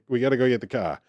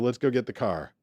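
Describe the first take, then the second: First: It is said quickly, as if in a hurry. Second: It is said calmly, with the R pronounced.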